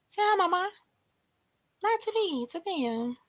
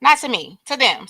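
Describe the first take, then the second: First: Higher and softer, coaxing the dog; tender pet talk, softly raised. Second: Said in the usual way. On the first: Real, not acted. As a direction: coo gently at the pet to say hi. Coaxing pet to greet viewers.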